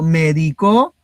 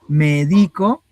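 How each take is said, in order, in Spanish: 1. El acento está en la última sílaba. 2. El acento está en la sílaba del medio. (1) "es el del verbo medicar en la tercera persona del singular en pasado" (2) "Medico es de que yo hago la acción de medicar"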